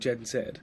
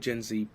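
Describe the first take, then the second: First: The letter is said the British way, 'zed'. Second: The letter is said the American way, 'zee'.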